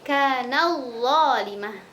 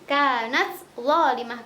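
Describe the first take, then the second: First: The t merges into the following consonant. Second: The t is pronounced clearly before the next word. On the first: "kalau idgham" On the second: "kalau idhar"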